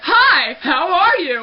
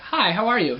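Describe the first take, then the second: First: The voice is at a very high pitch. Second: The voice is at a lower, ordinary pitch. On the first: This is how the voice sounds now. "It's like super high" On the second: This is how the voice used to sound. "before it was like"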